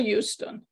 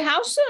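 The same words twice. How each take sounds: First: Houston opening on a "yoo" sound; Houston as YOU-ston. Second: Houston opening on an "ow" vowel, no "you" sound; Houston as HOW-ston. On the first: Asking the group which way they say it, Houston as YOU-ston. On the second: Asking the group which way they say it, Houston as HOW-ston. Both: Shown as a demonstration. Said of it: "Do you say Houston or Houston?".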